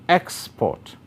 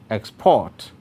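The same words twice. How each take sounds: First: The stress is on the first syllable. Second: The stress is on the second syllable. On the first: It is used as a noun. "that's a noun" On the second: It is used as a verb. "that's a verb"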